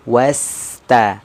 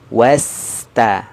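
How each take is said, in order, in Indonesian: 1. Bunyi s mengalir halus ke bunyi berikutnya. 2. Bunyi s mengalir halus ke bunyi berikutnya.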